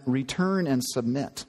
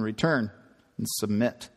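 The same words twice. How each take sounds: First: Said in the usual way. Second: Low, stern policeman; lightly voiced stern cop. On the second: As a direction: order it like a cop. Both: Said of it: "now he sounds like a policeman".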